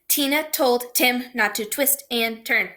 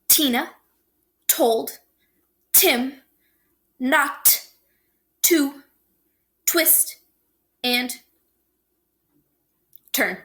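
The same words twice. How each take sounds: First: The sentence is spoken very fast. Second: The sentence is spoken slowly. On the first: "One more time real fast" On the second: "I'm going to say it slower first"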